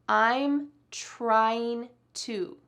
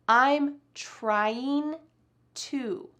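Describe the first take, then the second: The two takes are said the same way.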